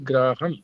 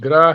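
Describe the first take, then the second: First: The word ends with an audible m sound. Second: The word ends in a plain vowel, no nasal. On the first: The speaker calls it right. "ऊपर जो बिंदी लगी हुई है मैं की आवाज आएगी" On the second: The speaker calls it wrong. "ग्राह है नहीं"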